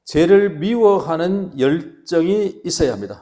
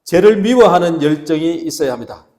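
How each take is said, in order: First: Loud, slow, stretched-out proclamation; preacher's slogan. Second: Very loud, driving preacher's call; leading group repetition. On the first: Pastor announcing the first point to the congregation, slow loud proclamation. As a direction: declare it slowly and forcefully for repeating. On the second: Pastor leading the congregation in repeating, full-force loud call. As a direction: belt it out so everyone repeats along. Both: Shown as a demonstration. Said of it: "한번 따라합시다".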